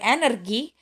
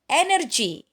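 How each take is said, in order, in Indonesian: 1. Huruf g keras, seperti dalam go. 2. Huruf g lunak, seperti j. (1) "bukan energi" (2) "dibaca G"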